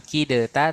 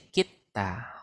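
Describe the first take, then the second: First: The d sound is pronounced before the t. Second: The d is dropped into a doubled t. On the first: The speaker calls it wrong. "bukan kideta" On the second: The speaker calls it right. "tapi kita"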